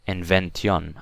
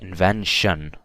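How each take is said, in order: First: The ending is said as separate 'tee-on' sounds. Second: The ending is said as a single 'shun' sound. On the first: The speaker calls it wrong. "you don't say tion" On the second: The speaker calls it right. "it's pronounced as shun"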